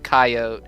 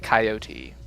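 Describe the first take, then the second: First: It is said with a Southern pronunciation. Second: It is said with a standard pronunciation. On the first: "all of my Southern friends, I'll be calling him coyote in my heart" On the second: "the movie, unfortunately, I believe will be pronouncing it coyote"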